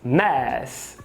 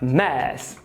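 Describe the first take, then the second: No difference in how they are said.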